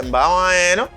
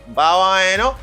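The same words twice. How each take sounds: Both takes have the same delivery.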